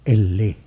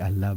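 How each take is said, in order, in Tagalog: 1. Ang salita ay nagsisimula sa patinig na 'eh'. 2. Ang salita ay nagsisimula sa patinig na 'ah'. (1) "it is pronounced as Elle" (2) "the pronunciation of Allah is not really Allah"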